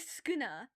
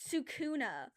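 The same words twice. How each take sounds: First: The first vowel is dropped. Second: The first vowel is clearly pronounced. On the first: The speaker calls it right. "You literally just ignore the first U and say Sukuna" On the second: The speaker calls it wrong. "everybody be pronouncing it Sukuna"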